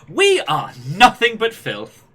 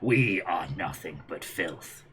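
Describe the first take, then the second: First: It is said in a happy, bouncy manner. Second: It is said in a cold, stern manner. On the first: "a happy, upbeat bouncy" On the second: "if you go all Gendo Ikari on it"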